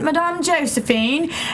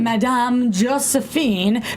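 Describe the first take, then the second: First: It is said in a put-on British accent. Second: It is said in the speaker's ordinary accent.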